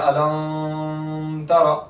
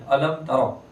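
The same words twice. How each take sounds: First: The m is held with a long nasal hum. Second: The m is released clearly without nasal hum. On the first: The speaker calls it wrong. "अब यहाँ कोई गुन्ना करेगा तो वो गलत है" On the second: The speaker calls it right. "इजहार शफी है, गुन्ना नहीं करेंगे।"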